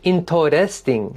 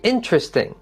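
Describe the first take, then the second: First: The word is said with four syllables. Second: The word is said with three syllables. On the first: "you have four syllables" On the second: "Practice saying it with three"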